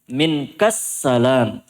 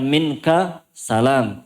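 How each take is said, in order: First: The k runs straight into a doubled s. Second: The k ends with a vowel before a single s. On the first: The speaker calls it right. "Jadi langsung ka masuk ke sin" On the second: The speaker calls it wrong. "Bukan minka salam"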